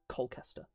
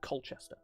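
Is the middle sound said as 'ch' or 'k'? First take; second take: k; ch. First: The middle is said with a 'k' sound. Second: The middle is said with a 'ch' sound. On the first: The speaker calls it wrong. "Americans will pronounce it" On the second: The speaker calls it right. "it's pronounced exactly as it's spelled"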